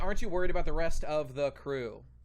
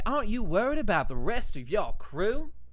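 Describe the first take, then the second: First: It is said in a plain, natural voice. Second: It is said in a put-on character voice. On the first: The speaker calls it wrong. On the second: The speaker calls it right.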